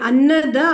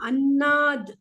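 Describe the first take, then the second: First: The word ends with a full final vowel. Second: The word ends sharply on a clipped consonant. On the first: The speaker calls it wrong. "ಅನ್ನದ ಅಲ್ಲ" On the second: The speaker calls it right. "Sharp ಆಗಿ cut ಮಾಡ್ಬೇಕು"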